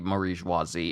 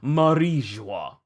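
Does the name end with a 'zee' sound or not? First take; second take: zee ending; no zee. First: The name ends with an extra 'zee' syllable. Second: The name ends on the 'joie' syllable. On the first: The speaker calls it wrong. "It's not supposed to be Marie-joisie" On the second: The speaker calls it right. "It's supposed to be Marie-joie"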